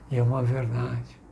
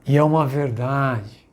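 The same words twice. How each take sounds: First: Said in the usual way. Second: E é uma verdade louder, pressing on é; emphatic repeat. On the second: Shown as a demonstration. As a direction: preach it, hitting é. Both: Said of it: "E é uma verdade que eu quero falar".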